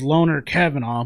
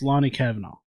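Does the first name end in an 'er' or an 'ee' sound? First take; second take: er; ee. First: The first name ends with an 'er' sound. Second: The first name ends with an 'ee' sound. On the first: The speaker calls it wrong. "I thought it was Loner Kavanaugh" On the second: The speaker calls it right. "It's pronounced Lonnie Kavanaugh"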